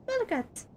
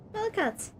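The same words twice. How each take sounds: The two takes are said the same way.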